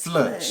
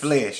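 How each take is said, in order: First: The vowel sounds like 'uh', as in 'bud'. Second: The vowel sounds like 'eh', as in 'bed'. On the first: This is how the speaker's father says it. "It's the flush, like my daddy say" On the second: This is the usual way of saying it. "He don't say"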